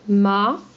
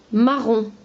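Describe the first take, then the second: First: "Ma-ron" broken by a clear pause; split into syllables. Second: Said in the usual way. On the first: Shown as a demonstration. Teacher cutting the word for pupils, "Ma-ron" in two syllables. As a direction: sound out "Ma", then "ron" separately. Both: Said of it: "on enlève la première syllabe".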